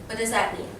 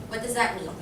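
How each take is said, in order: Both takes have the same delivery.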